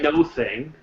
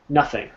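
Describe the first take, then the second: First: The first syllable has an 'oh' vowel. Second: The first syllable has a short 'uh' vowel. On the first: The speaker calls it wrong. "We don't say no thing" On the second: The speaker calls it right. "instead of the O, it's almost like we're saying na"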